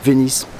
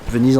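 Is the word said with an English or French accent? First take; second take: English; French. First: It is said with an English accent. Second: It is said with a French accent. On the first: The name as reused for the American place. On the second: The name of the Italian city.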